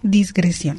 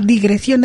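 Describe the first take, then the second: First: It has an s sound before the g. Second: It has no s sound before the g. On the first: The speaker calls it wrong. "No disgresión" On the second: The speaker calls it right. "Digresión es la primera palabra y es lo correcto"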